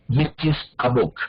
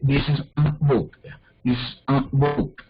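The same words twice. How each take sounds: First: Said in the usual way. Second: Slow English demo with "a" through the nose; nasalized A. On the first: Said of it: "en inglés no cambia". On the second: Shown as a demonstration. Teacher showing students that meaning holds, "a" nasalized. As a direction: drag out "a" as a nasal vowel. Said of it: "La nasalizo".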